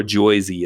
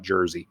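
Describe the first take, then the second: First: Jersey said the New York way, like "Joisey"; mock New Yorker saying Jersey; New York accent. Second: Said in the usual way. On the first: Shown as a demonstration. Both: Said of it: "or Jersey as they're called".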